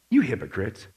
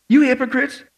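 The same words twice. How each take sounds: First: Low, softened, deadpan rebuke. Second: Higher, raised-voice accusing question; incredulous rebuke. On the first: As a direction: deliver the reproach quietly, pitched way down. Voicing Jesus's rebuke, first take. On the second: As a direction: throw it at them in disbelief. Voicing Jesus's rebuke, second take. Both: Acted.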